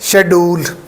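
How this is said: It starts with 'sh' and has a 'd' sound. "पाकिस्तानी देखें तो यहाँ पर डी की साउंड आती है"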